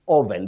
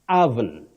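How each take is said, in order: First: The first vowel is an 'oh' sound. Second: The first vowel is an 'uh' sound. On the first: The speaker calls it wrong. "Innocently said oven because of what our eyes see" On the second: The speaker calls it right. "The O at the beginning takes the mid-central sound uh"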